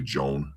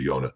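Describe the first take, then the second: First: It starts with a J sound, one syllable. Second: It starts with a Y sound, two syllables. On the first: The speaker calls it wrong. "Some people say Joan" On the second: The speaker calls it right. "but it's really Yonah"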